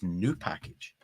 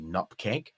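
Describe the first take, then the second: First: It is said as three syllables, new pack-age. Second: It is said as two syllables, nup-keg. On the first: The speaker calls it right. "the real pronunci- pronunciation is new package" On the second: The speaker calls it wrong. "Gary pronounces N U P K G Nupkeg"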